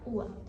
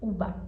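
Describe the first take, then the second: First: The middle b almost disappears. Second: The middle b is said as a clear b. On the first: It names the fruit. The speaker calls it right. "ua é a fruta. Porque o B, ele meio que desaparece" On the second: It sounds like the name of a university. The speaker calls it wrong. "O V e o B têm o mesmo som. Então você poderia falar assim"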